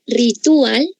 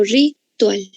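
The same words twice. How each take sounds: First: "ritual" as ri-TU-al, with a hiatus and rising end; three-syllable pronunciation. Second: "ritual" as ri... TUAL, slow and falling; two-syllable pronunciation. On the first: Teacher offering the class an option, "ritual" said ri-TU-al. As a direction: break the diphthong in "ritual": ri-TU-al. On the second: Teacher offering the class the other option, "ritual" said slowly ri-TUAL. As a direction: keep "ual" as one syllable in "ritual": ri-TUAL. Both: Shown as a demonstration. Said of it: "¿Pronuncio ritual o ritual?".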